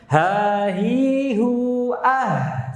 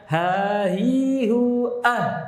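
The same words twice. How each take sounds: First: The h sound flows out with continuous breath. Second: The h sound is held back and cut off. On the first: The speaker calls it right. "Tapi rakhawah, dialirkan suaranya" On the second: The speaker calls it wrong. "Bukan syiddah. Kalau syiddah ditahan"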